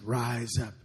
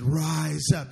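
First: It is said moderately loud. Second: It is said loudest of all.

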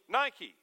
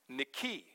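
First: The stress is on the first syllable. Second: The stress is on the long last syllable. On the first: The speaker calls it wrong. "like the shoe company, Nike. But that's not correct" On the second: The speaker calls it right. "Last syllable gets the accent and it's long"

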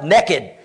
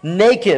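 First: It is said in a Deep South accent. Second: It is said without a Southern accent.

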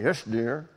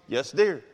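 First: It is said grudgingly through gritted teeth. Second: It is said warmly and sincerely.

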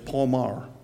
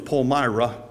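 First: The name has the Pennsylvania pronunciation. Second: The name has the New York pronunciation. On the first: "Down here in Lancaster County, it's Palmar" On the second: "In New York, it's Palmyra"

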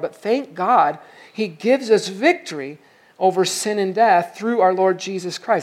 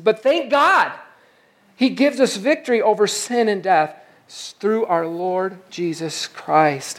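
First: It is read flatly, without much energy. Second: It is read with exclamatory energy.

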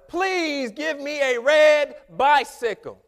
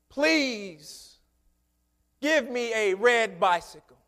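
First: It is said at a louder volume. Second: It is said at a quieter volume.

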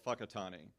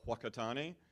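First: The name begins with an 'f' sound. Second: The name begins with a 'w' sound. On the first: The speaker calls it right. "WH in New Zealand is pha. So it's called Whakatane" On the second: The speaker calls it wrong. "Americans come in and they call it Whakatane"

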